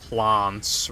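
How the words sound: The vowel is a broad British 'ah' sound. "the guy is British... he says plants"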